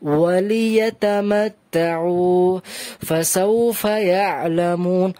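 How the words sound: It has a one-second stop with a breath taken. The speaker calls it wrong. "এক সেকেন্ডের জন্যই থামলাম, বাট নিঃশ্বাস ছাড়লাম"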